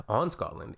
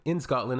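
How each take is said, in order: First: "on" picked out as the odd word; stress on "on". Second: "in" pushed up as the correction; stress on "in". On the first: Reader querying the customer's wording, stress on "on". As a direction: repeat it, leaning on "on". Repeats the wrong preposition. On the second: Reader correcting the customer's wording, stress on "in". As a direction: correct it, hitting "in". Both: Shown as a demonstration.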